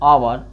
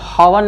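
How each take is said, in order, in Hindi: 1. शब्द स्वर से शुरू होता है, h ध्वनि नहीं है। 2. शब्द की शुरुआत में साफ़ सुनाई देने वाली h ध्वनि है। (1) "इसको क्या बोला जाता है, आवर" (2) "इसको कब हावर नहीं बोल"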